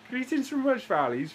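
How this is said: It is said in a put-on Welsh accent.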